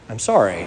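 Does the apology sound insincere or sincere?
sincere. The apology sounds heartfelt and sincere. The apology is truly meant. The speaker calls it right.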